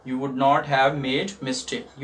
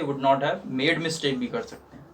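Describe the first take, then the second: First: Very slow, clear teaching read; teacher repeating the sentence for students, very slowly; slow model sentence. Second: Said in the usual way. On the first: Shown as a demonstration. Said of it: "teacher repeats slowly". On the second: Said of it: "same sentence said more normally".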